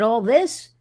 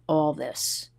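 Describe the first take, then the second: First: Rising, higher and louder all this; astonished echo, pitch climbing at the end; surprised question. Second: Lower, softer, falling all this; calm deadpan answer, tune falling; flat confirmation. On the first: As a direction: ask all this in disbelief. Surprised question at security check. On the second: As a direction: state all this as settled fact. Agent's flat confirming reply. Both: Retold or imitated.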